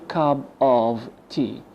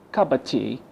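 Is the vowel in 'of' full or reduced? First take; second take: full; reduced. First: The vowel in 'of' is a full vowel. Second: The vowel in 'of' is a weak schwa. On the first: The speaker calls it wrong. "not a cup of tea" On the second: The speaker calls it right. "So we replace it with a schwa"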